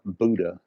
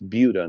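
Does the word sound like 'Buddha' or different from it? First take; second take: like Buddha; different. First: The word sounds like Buddha. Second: The word does not sound like Buddha. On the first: The speaker calls it wrong. "not Buddha" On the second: The speaker calls it right. "it's Buda"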